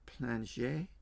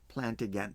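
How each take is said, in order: First: The name is said with a French pronunciation. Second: The name is said with an American English pronunciation. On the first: "I think it's a French pronunciation" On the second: "Plantagenet sounds so American English"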